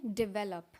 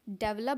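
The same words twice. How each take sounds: First: "डेवलप" said di-VEL-up; short first vowel, stressed VEL in "डेवलप"; correct pronunciation. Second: "डेवलप" said DEV-lup; front-stressed "डेवलप", DEV-lup; common mispronunciation. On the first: Teacher corrects learners, "डेवलप" as di-VEL-up. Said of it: "लेकिन ये असल में होता है डेवलप". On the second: Teacher shows how people usually say it, "डेवलप" as DEV-lup. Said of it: "Usually लोग इसको डेवलप बोलते हैं". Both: Shown as a demonstration.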